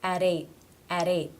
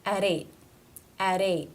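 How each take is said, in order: First: AT linked to EIGHT with a D-like tap; flap T. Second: EIGHT cut off on an unreleased T; stop T. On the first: Teacher modelling linked words, flap T ending AT. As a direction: run it together as "a-deight", AT ending in a flap. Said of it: "the flat T sound or the D sound". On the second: Teacher modelling a final T, stop T in EIGHT. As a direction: stop the breath at the end of EIGHT, no release. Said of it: "It's a stop". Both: Shown as a demonstration.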